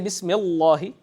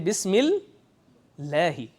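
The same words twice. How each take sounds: First: The L in Allah is heavy and dark. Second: The L in Allah is light and clear. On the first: The speaker calls it wrong. "You don't say" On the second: The speaker calls it right. "You say بسم الله. ... the lam is light"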